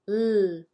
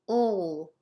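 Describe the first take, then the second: First: A clear L with the tongue forward. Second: A dark L with the tongue pulled back. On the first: This is the L at the start of a word. "the L at the beginning of the word" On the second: This is the L at the end of a word. "We're pulling our tongue back"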